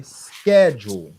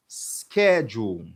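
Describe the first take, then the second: First: "schedule" slow and much louder on skeh; stressed first syllable. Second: "schedule" said slowly and evenly, skeh-jool; slowed model word. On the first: Teacher stresses the word for the students, slow and loud. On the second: Teacher repeats the word slowly for the class. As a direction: draw "schedule" out syllable by syllable. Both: Shown as a demonstration. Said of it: "Mais stress syllable là".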